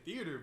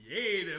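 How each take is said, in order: First: The word is said in a plain, neutral way. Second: The word is said with a stylized, flavored pronunciation. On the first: This is how the speaker says it. "I be saying theater" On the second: This is how the friend says it. "Like it got that don't got like seasoning on it"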